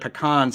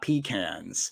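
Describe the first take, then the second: First: It uses the indigenous American pronunciation. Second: It uses the later derived pronunciation. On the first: The speaker calls it right. "thank you for pronouncing it pecans" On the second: The speaker calls it wrong. "and not pecans"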